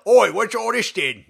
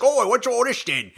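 First: Hammed-up British accent, higher, with an "Oi"; cheeky mock Brit, punch the Oi. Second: Lightly hammed British accent, higher pitch; a hint of a chirpy Brit. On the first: Co-host shows her own Bale impression, hammed-up British accent. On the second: Co-host mimics Bale in interviews, mock British accent. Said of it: "he's like".

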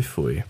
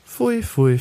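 First: Low and much softer, dropping away; muttered pfui. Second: High, squealing mock disgust; disgusted pfui. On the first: Acted. Narrator ending his disgust, low soft pfui. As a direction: let the last pfui sink to a low murmur. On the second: Narrator recoiling from the word Ja, high disgusted pfui. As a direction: shriek the pfui up high in revulsion.

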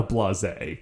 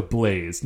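First: Blase as two syllables, blah-ZAY; two-syllable blase, slow and deliberate; pronounced as blasé. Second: BLAZE as one syllable, silent final e; one-syllable blaze, slow and deliberate; pronounced as blaze. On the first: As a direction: say blase French-style, ending in an ay sound. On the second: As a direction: say blaze to rhyme with days. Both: Shown as a demonstration. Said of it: "meant to say blaze and not blase".

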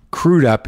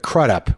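First: Crudup with a long oo, CROO-dup. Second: Crudup with a short u, as in crud; Crudup mispronounced CRUD-up. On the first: Host correcting himself on a guest's name, Crudup said CROO-dup. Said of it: "first time I've ever pronounced it". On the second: Host showing his old mistake on a guest's name, Crudup said CRUD-up. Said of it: "which is wrong". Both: Shown as a demonstration.

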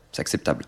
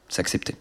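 First: « acceptable » chuchoté, plus bas et doux. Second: Said in the usual way. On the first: Shown as a demonstration. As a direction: correction soufflée en aparté. (« C'est acceptable » murmuré tout bas)

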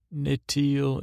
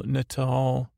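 First: "Natal" said like "nit-eel"; tentative pronunciation. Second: "Natal" said as "nuh-tall"; second-try pronunciation. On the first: Recapper trying out a noted word, tentative pronunciation. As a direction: say "Natal" with an ee in the last syllable. Tries a written word two ways. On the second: Recapper retrying a noted word, careful pronunciation. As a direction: say "Natal" with an ah in the last syllable. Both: Real, not acted.

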